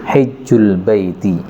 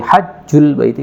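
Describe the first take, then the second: First: The first vowel is a front 'i'. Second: The first vowel is an open 'a'. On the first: "Di kasrah"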